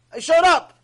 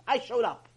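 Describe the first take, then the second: First: Much louder, higher insistence; loud, raised declaration; emphatic repeat. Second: Said in the usual way. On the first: Retold or imitated. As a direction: hit it hard, almost shouting.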